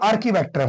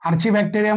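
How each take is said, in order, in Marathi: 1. हा शब्द 'arki' ने सुरू होतो, त्यात 'k' आवाज आहे. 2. हा शब्द 'archi' ने सुरू होतो, त्यात 'ch' आवाज आहे. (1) "आर्की बॅक्टेरिया म्हणा" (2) "आर्ची बॅक्टेरिया म्हणा"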